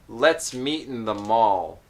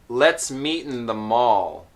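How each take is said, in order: The two takes are said the same way.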